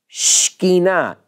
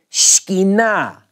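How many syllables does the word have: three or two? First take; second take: two; two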